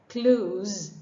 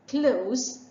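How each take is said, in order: First: The word ends with a buzzing z sound. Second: The word ends with a hissing s sound. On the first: It is a verb meaning to shut. "it has the Z sound" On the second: It means near. "rhyming with horse"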